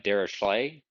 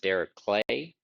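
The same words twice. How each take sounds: First: The middle consonant is said as 'sh'. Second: The middle consonant is not said as 'sh'. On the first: This is the commonly heard pronunciation. "with it like an S H" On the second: This is how the namesake himself pronounced it. "he actually pronounced it Dirichlet"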